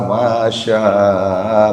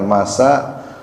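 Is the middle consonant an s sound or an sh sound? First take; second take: sh; s. First: The middle consonant is an sh sound. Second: The middle consonant is a plain s sound. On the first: The speaker calls it right. "pakai shin besar" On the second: The speaker calls it wrong. "bukan masa"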